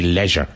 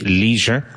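First: It is said with a British pronunciation. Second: It is said with an American pronunciation. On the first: "British and Irish tends to be leisure" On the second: "American tends to be leisure"

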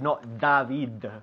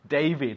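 First: The D is made without raising the tongue. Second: The D is made with the tongue raised. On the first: The speaker calls it wrong. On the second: The speaker calls it right. "David, not David. The D is pronounced with the tongue up"

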